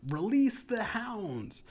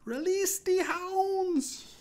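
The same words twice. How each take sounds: First: Higher, drawn-out mock yell; imitated yell. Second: Very high, drawn-out mock German shriek; German accent yell. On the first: Storyteller imitating the rapper onstage, mock yell. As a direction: call it out high and slow, imitating a performer. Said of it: "the rapper yelled out". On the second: Storyteller imitating the rapper onstage, German accent yell. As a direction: shout it slowly in a put-on German accent. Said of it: "he did it in a German accent".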